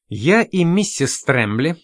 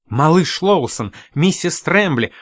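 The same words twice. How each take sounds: First: Slow, level "миссис Трэмбли" with a small rise; calmly. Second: Higher, calling out "миссис Трэмбли" with a falling close; glad greeting. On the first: Lawson answers Miss Spine, slow and calm. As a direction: answer evenly, unhurried. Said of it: "спокойно сказал Лоусон". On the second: Host greets Lawson and Mrs Trembly, glad and raised. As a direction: warmly hail the arriving guests. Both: Acted.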